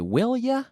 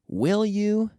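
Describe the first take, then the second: First: The last word is reduced to 'ya'. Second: The last word is said fully as 'you'.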